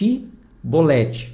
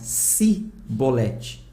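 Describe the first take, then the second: First: The word begins with an sh sound. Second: The word begins without an sh sound. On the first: "com som de X" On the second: "Eles pronunciavam Cibolete, por causa do sotaque da região"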